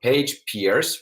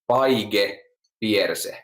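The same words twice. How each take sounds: First: The name is said with an English pronunciation. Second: The name is said with a Finnish pronunciation.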